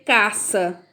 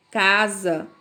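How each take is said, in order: First: Caça with a sharp S sound, not Z; wrong S sound. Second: Casa with the S voiced as Z; right Z sound. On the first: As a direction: say caça with a hissing S. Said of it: "você não vai dizer caça". (caça com som de S) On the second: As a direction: say casa with a buzzing Z. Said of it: "você vai dizer casa". (casa com som de Z) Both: Shown as a demonstration.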